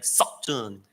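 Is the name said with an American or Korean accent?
American. The name is said with an American accent.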